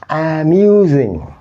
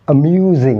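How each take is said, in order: First: The first vowel is a full, clear vowel. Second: The first vowel is a weak, relaxed schwa. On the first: The speaker calls it wrong. "not amusing" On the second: The speaker calls it right. "we pronounce these words like amusing"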